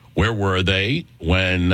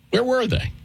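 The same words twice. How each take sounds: First: Said in the usual way. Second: Where were they, pitched high in mock disbelief; incredulous, higher. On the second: Host challenging critics on air, incredulous and high.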